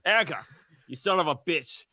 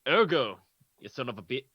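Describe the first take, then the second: First: It is said in an Australian accent. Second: It is said in the speaker's ordinary accent.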